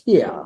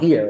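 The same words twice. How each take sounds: First: It is said in a New York accent. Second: It is said in a plain, neutral accent. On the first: The speaker calls it right. "it's here. Because it's a New York accent" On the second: The speaker calls it wrong. "It's not here"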